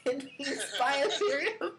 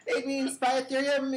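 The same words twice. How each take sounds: First: Words broken up by a laugh; chuckling as he repeats it. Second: Said in the usual way. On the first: Real, not acted. Host repeats cohost's answer laughing.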